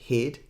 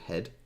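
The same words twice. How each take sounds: First: The word has a South African vowel sound. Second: The word has a general, non-South African vowel sound. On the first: "that sounds more kind of South African" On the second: "instead of"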